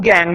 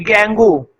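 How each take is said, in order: First: गैंग, one syllable with silent U and E. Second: गेंगू, in two syllables ending in a long "oo"; gangue as गेंगू. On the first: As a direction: say गैंग like "gang", stopping without an "oo". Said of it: "मैं यू और ई को silent कर देता हूं". (गैंग, यू और ई silent रखकर) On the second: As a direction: sound the final vowel in गेंगू, like डेंगू. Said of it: "इसको कुछ लोग गेंगू पढ़ते हैं". (गेंगू के अंत में "ऊ" बोलकर) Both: Shown as a demonstration.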